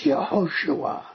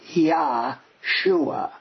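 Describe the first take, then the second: First: The name begins with two syllables 'Ye-ho'. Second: The name begins with a single syllable 'Yah'. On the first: The speaker calls it right. "That's the way it's pronounced in Hebrew" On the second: The speaker calls it wrong. "It's not Yahshua"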